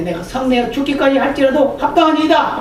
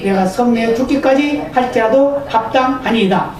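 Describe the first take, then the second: First: Defiant retort. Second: Said in the usual way. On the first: Retold or imitated. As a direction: answer God back like a defiant child. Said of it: "막 대들죠". (하나님께 대드는 요나, 반항하는 말투) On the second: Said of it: "first reading of the verse".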